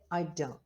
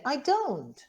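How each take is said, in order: First: The voice sounds bored. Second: The voice sounds surprised. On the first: The speaker is uninterested in the question. "I'm bored" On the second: The speaker is surprised at being asked. "you mean, I'm surprised that you ask me"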